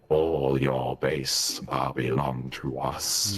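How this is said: It is said in a Pascal character voice. The speaker calls it wrong. "the Pascal one is not as good"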